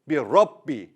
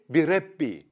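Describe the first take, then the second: First: The R is pronounced thick and heavy. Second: The R is pronounced thin and light. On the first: The speaker calls it right. "I say bi Rabbi. Why? Because the letter Ra has fatha" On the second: The speaker calls it wrong. "I don't say bi Rabbi"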